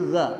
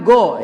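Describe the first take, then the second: First: It starts with a throaty gh sound. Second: It starts with a plain hard g sound. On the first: The speaker calls it right. "Jadi gha" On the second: The speaker calls it wrong. "bukan go ya"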